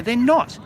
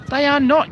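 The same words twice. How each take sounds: First: Said in the usual way. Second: "not" hit hard, higher and louder; stress on not. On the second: Real, not acted. Correcting viewers, firmly stressing "not". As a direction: lean on "not" to insist.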